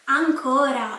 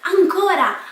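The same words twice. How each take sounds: First: It sounds annoyed and reproachful. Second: It sounds excited and eager. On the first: Someone is doing this again. "like you're doing this again" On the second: The speaker wants more. "I'm excited, I want more"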